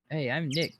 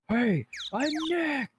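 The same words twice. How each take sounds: First: It is said at normal, quieter volume. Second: It is said more loudly.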